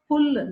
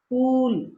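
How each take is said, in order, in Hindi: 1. स्वर जल्दी खत्म कर दिया जाता है। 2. स्वर लंबा खींचा जाता है।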